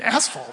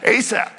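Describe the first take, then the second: First: The name sounds like the word asphalt. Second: The name sounds like Asaph, without an 'l'. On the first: The speaker calls it wrong. "I call them asphalt" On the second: The speaker calls it right. "I said it right"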